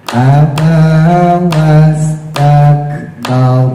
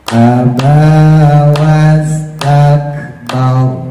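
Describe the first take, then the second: Both takes have the same delivery.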